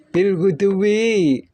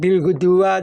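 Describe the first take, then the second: First: The last word ends with an 'i' vowel. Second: The last word ends with an 'a' vowel. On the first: The speaker calls it right. "majrur bil ba" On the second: The speaker calls it wrong. "tidak boleh bil guduwa"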